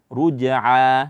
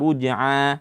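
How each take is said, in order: First: The final sound comes from the throat, not nasal. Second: The final sound is pushed through the nose. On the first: The speaker calls it right. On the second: The speaker calls it wrong.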